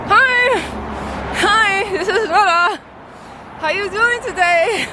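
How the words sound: It is said tensely through a clenched jaw.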